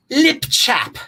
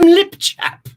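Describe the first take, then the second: First: Said in the usual way. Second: Lip chap in a high, posh-joking British accent; playful mock British accent for lip chap. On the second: Shown as a demonstration. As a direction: say lip chap the way they call it in the United Kingdom, a British accent, much higher. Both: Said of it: "as they call it in the United Kingdom".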